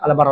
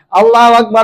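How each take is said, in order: First: It is rushed and clipped, dropping syllables. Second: It is said slowly with every syllable. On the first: The speaker calls it wrong. "Saking kencangnya tidak bilang Allahu Akbar" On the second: The speaker calls it right.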